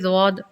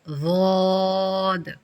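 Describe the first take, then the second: First: The vowel is cut short. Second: The vowel is stretched out long. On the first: The speaker calls it wrong. "आप छोटा पढ़ेंगी" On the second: The speaker calls it right. "इसको तीन हरकत तक खींचें"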